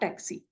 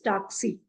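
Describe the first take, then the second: First: It is pronounced the English way. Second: It is pronounced the German way. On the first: The speaker calls it wrong. "and not taxi" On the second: The speaker calls it right. "pronunciation is taxi"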